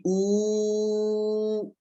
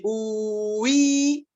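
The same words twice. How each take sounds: First: "ou" stretched very long on one unchanging oo; one held vowel. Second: "oui" drawn out, a long oo turning into a long ee; sound that turns. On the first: Teacher showing one syllable, "ou" held long and unchanged. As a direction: hold "ou" steady without turning the sound. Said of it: "c'est une seule parce que je n'ai pas tourné". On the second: Teacher showing two syllables, "oui" slowly turned from oo to ee. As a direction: stretch "oui" into two held vowels, ou-i. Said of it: "il y a deux parce que je suis tourné". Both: Shown as a demonstration.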